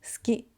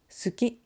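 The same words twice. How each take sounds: First: "suki" said as ski, u dropped; u voiceless. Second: "suki" with a full, clear u; su-ki, both syllables sounded; u voiced. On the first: Teacher showing students the natural way, u voiceless. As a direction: swallow the u between s and k. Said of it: "we say". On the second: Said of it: "instead of saying". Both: Shown as a demonstration.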